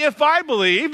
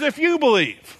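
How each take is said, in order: First: The word I leaned on a little, not on believe; stress on I. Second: The word you leaned on, believe falls after; stress on you. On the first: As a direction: pastor quoting the wrong version to the church, mild stress on I. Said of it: "it doesn't say". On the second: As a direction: pastor correcting the verse for the congregation, stress on you. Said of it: "it says". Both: Shown as a demonstration.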